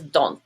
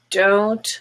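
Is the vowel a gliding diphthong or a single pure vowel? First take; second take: pure vowel; diphthong. First: The vowel is a single pure vowel. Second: The vowel glides as a diphthong. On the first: The speaker calls it wrong. "I usually hear as don't" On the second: The speaker calls it right. "but it's I don't know"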